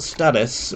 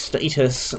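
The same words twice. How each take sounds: First: The first syllable sounds like 'stat'. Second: The first syllable sounds like 'stay'. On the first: The speaker calls it wrong. "not status" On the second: The speaker calls it right. "that is status, because they make you stationary"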